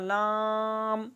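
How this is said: The letter name is said through the nose. The speaker calls it wrong. "नाक में पढ़ना"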